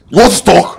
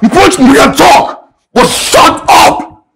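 First: Said in the usual way. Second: Drawn out very slowly, with a rising sneer on "want"; slow mocking taunt. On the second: Neighbour slowly mocks the man before telling him to shut up. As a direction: stretch every word to goad him.

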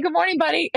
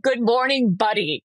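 First: High, sing-song pet-talk greeting. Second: Said in the usual way. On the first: Retold or imitated. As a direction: chirp it like to a dog. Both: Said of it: "because I've been talking to all these animals".

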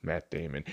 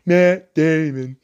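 First: Said in the usual way. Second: Slow, louder, put-on voice on "Matt Damon"; drawn-out Matt Damon. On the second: Shown as a demonstration. Naming the actor again in a slow put-on voice. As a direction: stretch out "Matt Damon" in a funny voice. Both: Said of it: "repeats name".

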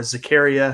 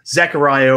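First: Zachariah as zuh-CARE-ee-uh; alternative pronunciation. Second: Zachariah as ZACK-uh-RYE-uh; alternative pronunciation. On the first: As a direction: stress CARE in Zachariah, ending ee-uh. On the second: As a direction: say Zachariah with a long "eye" in RYE. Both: Shown as a demonstration. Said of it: "however you wanna say it".

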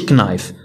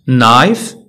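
First: "knife" said with a hard K before the N; K sounded. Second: "Knife" starting straight on N; silent K. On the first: Teacher shows learners the wrong way, K sounded in "knife". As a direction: say "knife" as k-nife, pronouncing the K. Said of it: "ما نقولوش knife". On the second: Teacher models the right word for learners, silent K in "Knife". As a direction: say "Knife" as nife, no K. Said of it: "ما كتنطقش". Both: Shown as a demonstration.

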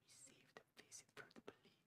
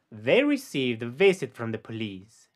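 First: Faint whispered echo of "They received a visit from the police."; voiceless, barely audible repeat. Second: Said in the usual way. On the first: Shown as a demonstration. Teacher whispering the model sentence for the learner.

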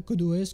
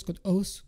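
First: "O S" as two separate letter names; spelled-out pronunciation. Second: "os" as a single syllable; one-word pronunciation. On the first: Tutor gives own name for the app, "O S" spelled out. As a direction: say each letter of "O S" by itself. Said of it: "moi je l'appelle code O S". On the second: Tutor gives viewers the other option, "os" as one word. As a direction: read "os" as a word, not as letters. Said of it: "c'est vous qui voyez". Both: Shown as a demonstration.

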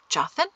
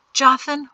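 First: Softer "Jothan" with rising, questioning end; questioning call. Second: High, firm call by name; addressing someone. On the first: Calls again, gets no answer. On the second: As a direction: call on him briskly, pitched up. Calls on Jothan for next step. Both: A narrator's reading.

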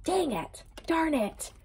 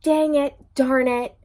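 First: High, much softer, mock disappointed; soft playful groan. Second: Loud, high, annoyed outburst; real frustration. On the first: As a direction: whine it under your breath, teasing. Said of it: "And then the Sun card came out". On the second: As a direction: kick yourself out loud for missing it. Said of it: "Oh, I should have said it". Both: Real, not acted.

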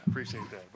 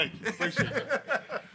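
First: Said in the usual way. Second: Thanks broken up by real laughter; laughing thanks. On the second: Real, not acted. New head coach thanking the athletic director, laughing. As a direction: laugh through the words, pitch jumping up on appreciate.

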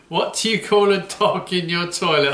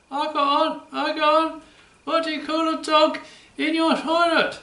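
First: Said in the usual way. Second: A much higher, squeaky puppet dog voice. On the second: Acted. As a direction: play the cheeky puppet George asking the riddle. Puppet George tells a joke.

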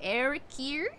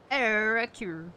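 First: "Arakir?" tried as EH-ri-keer with a rising, questioning end; unsure pronunciation. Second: "Arakir." said louder as EHR-koor with a firm falling end; settled pronunciation. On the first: Unsure how to say the game title, tries "Arakir?". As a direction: test the word "Arakir?" as a guess. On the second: Settling on a way to say the game title, firm "Arakir.". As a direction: commit to "Arakir." firmly. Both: Shown as a demonstration. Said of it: "How the fuck you say it?".

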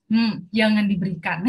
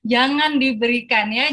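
First: Said in the usual way. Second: "Jangan diberikan" repeated louder with weight on "jangan"; emphatic repeat. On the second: Real, not acted. Speaker stresses advice to parents, louder on "jangan". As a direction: hammer home "jangan" the second time.

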